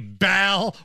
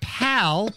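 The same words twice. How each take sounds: First: The word starts with a B sound. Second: The word starts with a P sound. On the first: The speaker calls it wrong. "with a hard B" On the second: The speaker calls it right. "it's supposed to be get ready, pal, P-A-L"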